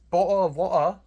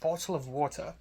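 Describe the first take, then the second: First: It is an exaggerated, stereotyped British accent. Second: It is a natural, unexaggerated British accent. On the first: The speaker calls it wrong. "that's like a stereotypical British accent" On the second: The speaker calls it right. "actual British accent, received pronunciation ... not that exaggerated"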